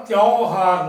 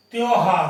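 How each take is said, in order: First: त्योहार with a broad au: tyau-haar; wrong pronunciation. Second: त्योहार with a pure o: tyo-haar; correct pronunciation. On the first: Teacher rejecting a misspelling, broad au in त्योहार. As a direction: open out the first vowel of त्योहार to "tyaao". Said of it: "इसका उच्चारण त्योहार नहीं है". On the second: Teacher correcting the word, pure o in त्योहार. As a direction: round the first vowel of त्योहार to "tyo". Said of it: "त्योहार है". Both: Shown as a demonstration.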